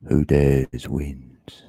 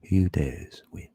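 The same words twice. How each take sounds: First: Hushed, slow, all breath; slow whisper. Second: Said in the usual way. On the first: Shown as a demonstration. To the stream, whispering the motto slowly. Repeats motto in two takes.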